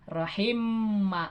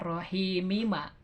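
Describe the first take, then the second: First: The final m runs straight into ma. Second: An i vowel is added before ma. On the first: "Rahim ma, nggak Rahimi ma" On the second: "nggak Rahimi ma"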